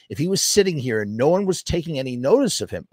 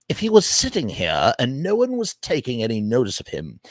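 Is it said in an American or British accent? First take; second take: American; British. First: It is said in his usual accent. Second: It is said in a British accent.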